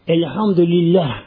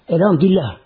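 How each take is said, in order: First: The word is said slowly and carefully. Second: The word is said quickly and carelessly. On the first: It is recited with care as worship. The speaker calls it right. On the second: It is recited hastily, like a toy. The speaker calls it wrong. "şu yanlış oluyor burada bak... Olmaz böyle"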